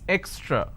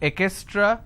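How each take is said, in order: First: The word is said with just two syllables. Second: An extra vowel splits the word into three syllables. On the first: The speaker calls it right. "it's extra" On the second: The speaker calls it wrong. "So this is wrong. It's not ekestra"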